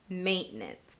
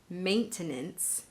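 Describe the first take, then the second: First: The word is said with just two syllables. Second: The word is said with three full syllables. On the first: This is how it is usually said in conversation. "pronounce it with just two syllables" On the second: This is the standard dictionary form. "an acceptable standard pronunciation of the word using those three syllables"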